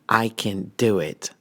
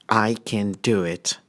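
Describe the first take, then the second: No difference in how they are said.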